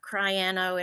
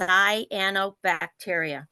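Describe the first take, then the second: First: The word starts with a 'cry' sound. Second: It starts 'sigh' with the full 'ano' syllables. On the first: The speaker calls it wrong. "It's not cryano" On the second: The speaker calls it right. "it's cyanobacteria"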